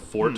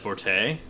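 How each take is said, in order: First: The word ends on a consonant, no vowel. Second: The word ends with a sounded final vowel. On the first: The speaker calls it right. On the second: The speaker calls it wrong.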